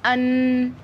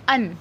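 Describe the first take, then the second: First: The final n is held long through the nose. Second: The final n is short without a held nasal sound. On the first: The speaker calls it wrong. "आपने इसको ऐसे नहीं पढ़ना" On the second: The speaker calls it right. "बस यही आवाज़ आएगी"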